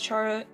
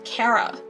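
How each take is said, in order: First: The name begins with a 'ch' sound. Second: The name begins with a 'k' sound. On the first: "I pronounce it as Chara" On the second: "it's pronounced Kara"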